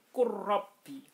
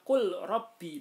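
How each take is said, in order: First: The l is dropped and the r doubled. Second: The l is pronounced separately before the r. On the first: The speaker calls it right. "harus dibaca qurrabbi" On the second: The speaker calls it wrong. "Tidak boleh dibaca qul rabbi"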